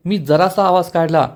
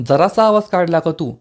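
First: Mildly defensive statement; irritated protest. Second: Mildly annoyed echo question; irritated question. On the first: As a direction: play it down, a little annoyed. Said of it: "Krishna चिडून म्हणते". (हलकं चिडून समर्थन) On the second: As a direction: question it back with slight irritation. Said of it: "Dushyant चिडून म्हणतो". (हलकं चिडून उलट प्रश्न) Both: A narrator's reading.

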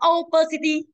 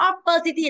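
First: "opacity" opening on a long gliding o, OH-puh-si-tee. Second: "Opacity" with a short first vowel, uh-PUH-si-tee. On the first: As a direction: say "opacity" with OH at the front. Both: Shown as a demonstration. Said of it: "không ai đọc là opacity".

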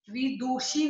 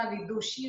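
First: विदुषी with stretched "doo"; wrong long vowel. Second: Said in the usual way. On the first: Shown as a demonstration. Teacher correcting a mistake, विदुषी with long doo. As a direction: draw out the u in विदुषी. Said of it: "नहीं होता". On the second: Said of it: "होता है".

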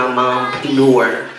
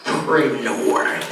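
First: "mompreneur" with its first R dropped; "mompreneur" missing the R after P; R slipped. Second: "preneur" with a clear R after P; corrected "preneur", the PR distinctly said; R put back. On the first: Real, not acted. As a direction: say "mompreneur" like mom-peneur. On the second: Shown as a demonstration. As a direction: carefully sound the first R in "preneur". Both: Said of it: "there's an R there".

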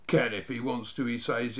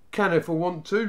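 First: Understated incredulous repeat; disbelieving echo. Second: Raised, defiant bluff; louder, higher bravado; pretending not to mind. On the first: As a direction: quote him back in disbelief. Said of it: "as if he couldn't believe his ears". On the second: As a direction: answer back with put-on unconcern. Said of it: "pretending not to mind". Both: A narrator's reading.

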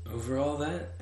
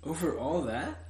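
First: "Over all that" as a confirming answer. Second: "Over all that" as a rising question; asking. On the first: King confirming "Over all that", answering. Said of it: "the king answered". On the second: Little prince asking "Over all that", questioning. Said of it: "asked the little prince". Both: A narrator's reading.

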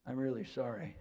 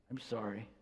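First: Gently understated heartfelt apology; sincere apology. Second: Low, muted, reluctant apology. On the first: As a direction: apologise as if you truly mean it. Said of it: "tell by the tone of the voice". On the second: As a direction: force out an apology with difficulty, softly. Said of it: "comes out with difficulty sometimes". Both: Shown as a demonstration.

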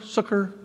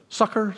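First: "succor" with the vowel of "book"; trying another pronunciation. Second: "Succor" said like "sucker"; trying a pronunciation. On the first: Preacher asking how you say it, "succor" as "sook-er". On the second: Preacher asking how you say it, "Succor" as "sucker". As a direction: say "Succor" with a short uh first vowel. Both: Shown as a demonstration. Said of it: "Is that how you say it?".

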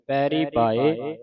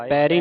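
First: ਪੈਰੀ ਪਾਏ slow, with a pure oral "ee"; no nasal. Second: ਪੈਰੀ with a nasal final "een"; nasalised ending. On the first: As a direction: keep the end of ਪੈਰੀ free of nasality. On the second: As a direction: demonstrate mistaken ਪੈਰੀ ending through the nose. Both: Shown as a demonstration. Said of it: "ਬਿੰਦੀ ਲਾ ਕੇ ਨਹੀਂ ਪੜ੍ਹਨਾ".

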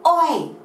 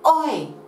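First: Biggest, highest "Oi!" through cupped hands; teacher calling the sailors again, full shout; louder call. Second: Loud high "Oi!", held back a little; teacher's first call that falls short, still loud; call, not loud enough. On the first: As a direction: really shout it this time. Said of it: "Hands around your mouth and let's call them". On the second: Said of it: "Now that wasn't loud enough". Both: Shown as a demonstration.

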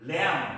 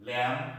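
First: Lamb with the B sounded, wrong; ল্যাম্প said with a hard B, the wrong way; ল্যাম্প incorrectly, B pronounced; wrong pronunciation. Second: ল্যাম্প with a silent B; correct pronunciation. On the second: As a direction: say ল্যাম্প ending on M, no B. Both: Shown as a demonstration. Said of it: "this is not lamp".

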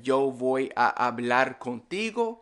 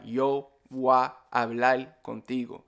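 First: Said in the usual way. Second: "voy a" as "wa", "hablar" ending in L; merged, L for R. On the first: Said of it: "So instead of saying". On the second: Shown as a demonstration. Teacher showing Caribbean Spanish, merged with L for R. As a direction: say "yo voy a hablar contigo" as "yo wa ablal contigo". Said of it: "we will add the L".

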